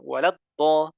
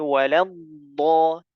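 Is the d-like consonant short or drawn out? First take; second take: short; drawn out. First: The d-like consonant is short and abrupt. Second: The d-like consonant is drawn out longer. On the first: The speaker calls it wrong. "nggak boleh dibaca waladdo" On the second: The speaker calls it right. "dibaca istitalah"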